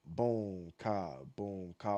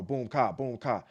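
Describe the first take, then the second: First: Slow beat demo. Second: Faster beat demo. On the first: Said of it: "The way you hear me say it". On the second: Dancer showing a faster tempo of the same beat, quicker boom ka. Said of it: "Or if I go". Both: Shown as a demonstration.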